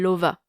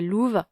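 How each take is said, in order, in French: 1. Le nom est prononcé avec des voyelles françaises. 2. Le nom est prononcé avec des voyelles malgaches. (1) "mais sinon je dis Lova" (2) "la personne en face de moi est malgache. Dans ce cas-là, je dirais Louve"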